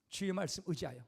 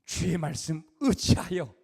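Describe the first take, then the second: First: Said in the usual way. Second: Slow, reverent "주의 말씀 의지하여" with weight on "주의"; slow, solemn vow of obedience; solemn Peter. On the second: Acted. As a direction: speak "주의 말씀 의지하여" slowly like a humbled vow. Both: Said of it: "그래서 무슨 말이 나오냐?".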